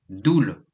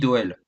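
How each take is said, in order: First: The vowel is a single 'oo' sound. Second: The vowel is said as 'o-e'. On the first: This is how the name is said in Belgium. The speaker calls it right. "le son O E en Belgique se dit OU" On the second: This is how the name is said in France. The speaker calls it wrong. "En France, on dit Doel"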